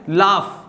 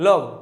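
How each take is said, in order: First: The word ends with an f sound. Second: The word ends with a g sound. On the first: The speaker calls it right. "इसका सही उच्चारण क्या है?" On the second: The speaker calls it wrong. "इसको बहुत सारे लोग पढ़ते हैं लॉग, ... तो ये गलत है।"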